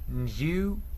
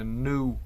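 First: It is said in a British accent. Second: It is said in an American accent. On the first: "для британців це" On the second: "для американців це"

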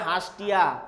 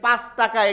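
First: It is said in the Noakhali dialect. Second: It is said in standard Bengali.

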